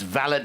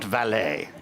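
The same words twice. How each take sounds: First: It is said the household-servant way. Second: It is said the car-parking way. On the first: A manservant who looks after a gentleman. The speaker calls it right. "it's valet" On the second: Someone who parks cars. The speaker calls it wrong. "we're not parking cars, not valet"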